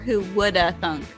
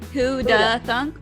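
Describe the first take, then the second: First: The 'would' is pronounced, giving 'who woulda'. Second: The 'would' is dropped, giving 'who'da'. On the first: "that's how I would say it's who woulda thunk"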